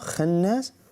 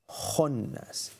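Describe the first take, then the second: First: The KH is pronounced light and thin. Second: The KH is pronounced heavy with full mouth. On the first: The speaker calls it wrong. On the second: The speaker calls it right.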